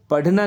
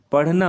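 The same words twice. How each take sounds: First: पढ़ना with a hard stopped retroflex dh; पढ़ना with undotted ढ sound; wrong hard dh. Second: पढ़ना with a flapped aspirated rh; पढ़ना with dotted ढ़ sound; correct flapped rh. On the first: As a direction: say पढ़ना as padh-na, no flap. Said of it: "नहीं होता बच्चों". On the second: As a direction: flick the tongue in पढ़ना, parh-na. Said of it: "ये पढ़ना होगा". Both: Shown as a demonstration.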